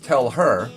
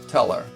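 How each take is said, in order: First: The two words are said fully and separately. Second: The two words are blended together and compressed. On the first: "Instead of tell her" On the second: "this very commonly will be blended together or compressed"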